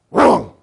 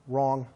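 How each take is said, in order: First: Loud, harsh burst on "Wrong"; guttural shout. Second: Low, soft, short "Wrong"; low guttural. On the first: Trainer correcting dog hard, guttural shout. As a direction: bark it to stop the dog. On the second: Trainer giving dog mild correction, low guttural. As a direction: murmur "Wrong" as a first warning. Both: Shown as a demonstration. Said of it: "Three guttural ways".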